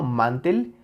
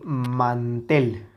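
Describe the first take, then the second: First: First "mantel" stressed on "man", weak "tel"; sin fuerza en la última. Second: "mantel" drawn out with stressed final "tel"; acento en la última sílaba. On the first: ("mantel" con el golpe en "man") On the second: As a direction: stretch "mantel" slowly onto a strong "tel". ("mantel" lento, con fuerza en "tel") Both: Shown as a demonstration. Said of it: "No es lo mismo".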